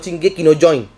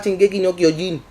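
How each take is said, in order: First: The last word is said as join. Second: The last word is said as kyo-jin. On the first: The speaker calls it wrong. "no Shingeki no Join" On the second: The speaker calls it right. "el anime se llama Shingeki no Kyojin"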